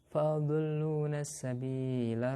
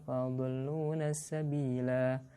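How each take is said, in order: First: The final vowel is short, running into next words. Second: The final vowel is held long before stopping. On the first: The reading continues past this word. "Coba dilanjutkan as-sabila" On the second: The reading stops at this word. "Kalau berhenti dibaca panjang"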